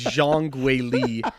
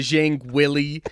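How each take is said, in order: First: The second name sounds like 'Way-lee'. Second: The second name sounds like English 'Willie'. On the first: The speaker calls it right. "it it is Zhang Weili" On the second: The speaker calls it wrong. "forgive him for these some of these pronunciations"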